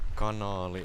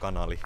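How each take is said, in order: First: The second vowel is held long. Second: The second vowel is kept short. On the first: This is the standard form of the word. "Kanaali in Finnish" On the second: This is how the locals say it. "the locals uh, pronounce it with one A"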